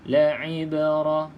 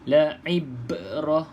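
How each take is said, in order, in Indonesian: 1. Huruf b terakhir hanya memantul sedikit dan ringan. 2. Huruf b terakhir memantul keras dan kuat. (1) "sikit saja lantunan dia sebab dia qalqalah sughra" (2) "itu dah keras, dah sedikit uh, kuat lantunan"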